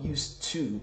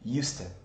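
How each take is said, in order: First: The final vowel of to is full. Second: The final vowel of to is a short schwa. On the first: The speaker calls it wrong. "it's not used to" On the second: The speaker calls it right. "It's a short sound, really short sound... a schwa"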